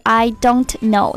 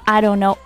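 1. don't里的t发音很清楚。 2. don't里的t被弱化了。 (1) "不是I don't know" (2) "这个t 也被弱读了"

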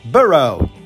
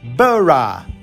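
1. Pronúncia americana, termina com um 'oh' arredondado. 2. Pronúncia britânica, termina com um 'uh' fraco. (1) "A maneira de pronunciar com o inglês mais falado nos Estados Unidos é burrow" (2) "E no inglês mais britânico é burra"

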